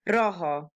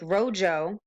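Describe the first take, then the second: First: The J is said like a Spanish J. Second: The J is said like an English J. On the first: The speaker calls it right. "but a Spanish one" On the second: The speaker calls it wrong. "don't say it with an English J"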